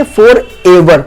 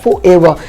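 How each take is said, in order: First: "forever" drawn out slowly as two pieces, for + ever; mistaken pronunciation. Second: "forever" said as one smoothly joined word; correct pronunciation. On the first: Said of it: "जो कि गलत है". ("forever" का गलत उच्चारण, धीरे-धीरे तोड़कर) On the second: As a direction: say "forever" the taught way, run together. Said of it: "इसका प्रोनंसिएशन होता है". ("forever" का सही, जुड़ा हुआ उच्चारण) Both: Shown as a demonstration.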